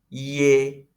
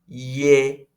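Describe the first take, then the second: No difference in how they are said.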